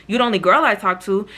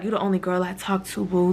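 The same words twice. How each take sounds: First: Said in the usual way. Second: Mock-flirty, much softer; flirty reading. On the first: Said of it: "I literally just was saying". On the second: The friend hears it as flirting, softly flirty. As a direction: softly coo it like a sweetheart. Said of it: "I feel like she took that as".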